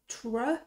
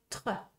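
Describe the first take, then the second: First: The R is made English-style, without throat friction. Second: The R is made French-style, scraping in the throat. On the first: The speaker calls it wrong. "je fais pas tre" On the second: The speaker calls it right. "je fais tre"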